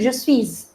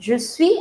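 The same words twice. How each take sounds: First: The final s of suis is pronounced. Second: The final s of suis is silent. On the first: The speaker calls it wrong. "I'm not saying je suis" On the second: The speaker calls it right. "I'm not pronouncing the last consonant"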